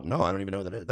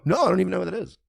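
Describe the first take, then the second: First: Said in the usual way. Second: High-pitched exasperated denial; emphatic denial. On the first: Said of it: "And I go". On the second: Acted. Streamer showing how simple the answer is, high exasperated denial. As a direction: toss it off high, as if it were obvious. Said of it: "that's all you have to do is go".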